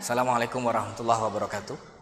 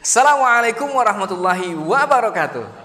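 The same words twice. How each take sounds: First: It is said in a flat, level tone. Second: It is said with a varied, rhythmic melody. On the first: The speaker calls it wrong. "itu datar, flat" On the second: The speaker calls it right. "intonasi nada"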